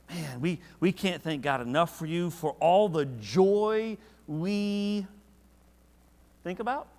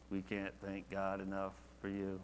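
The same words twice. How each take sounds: First: Rising higher and louder, stretched out slow; passionate. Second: Flat and dry. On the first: Paul thanking God for the church, with passion. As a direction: pour out heartfelt gratitude. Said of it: "now he's like". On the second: Preacher mocking a lifeless reading of Paul, flat and quiet. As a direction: lower and softer, dull recitation. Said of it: "I don't see him just, you know". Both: Shown as a demonstration.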